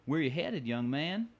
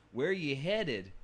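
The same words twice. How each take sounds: First: Lightly voiced old Western bartender accent, a touch higher; a folksy bartender drawl on "Where you headed". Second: "Where you headed" stretched out slowly, as the book spells it; slow accent demo. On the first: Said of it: "You hear that accent". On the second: Shown as a demonstration. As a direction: slowly sound out the bartender's drawled "headed". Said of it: "spelled where, Y H H E A D I N apostrophe".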